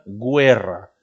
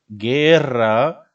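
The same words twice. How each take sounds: First: The u is sounded after the g. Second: The u is silent after the g. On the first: "si les pones los dos puntitos, diría guerra" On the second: "No es lo mismo decir, por ejemplo, guerra"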